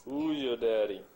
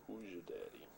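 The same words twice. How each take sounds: First: "Who's your daddy?" boomed out, much louder; louder playful call. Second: Said in the usual way. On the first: Shown as a demonstration.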